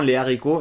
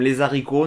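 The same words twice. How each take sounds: First: No z sound joins les and haricots. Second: A z sound links les to haricots. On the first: The speaker calls it right. "normalement non" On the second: The speaker calls it wrong. "moi je vais souvent faire la liaison"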